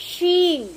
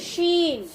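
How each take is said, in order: No difference in how they are said.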